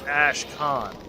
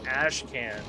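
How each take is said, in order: First: The last syllable sounds like 'con'. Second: The last syllable sounds like 'can'. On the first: The speaker calls it right. "I'm pretty sure it's Ashcan. ... a con is a thing. ... Like K H A N" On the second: The speaker calls it wrong. "I kept saying Ashcan"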